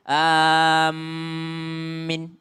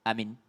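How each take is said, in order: First: The m is doubled and the last vowel short. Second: Both vowels are short and the m is single. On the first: "mentasydidkan mimnya lalu memendekkan yanya" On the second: "Hamzanya pendek, minnya juga pendek"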